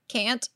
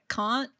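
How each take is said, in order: First: It is said with an American-sounding vowel. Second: It is said with a British-sounding vowel. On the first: This is the intended accent of the character. The speaker calls it right. "instead of a can't" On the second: The actor's own accent slipped through. The speaker calls it wrong. "she slipped like a can't in there"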